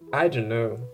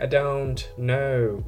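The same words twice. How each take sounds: First: The t is dropped and the words run together. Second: The t is clearly pronounced between separate words. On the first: "the American one, it's like a U ... they link all the words in just one" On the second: "in England, they announce it better. The T sounds"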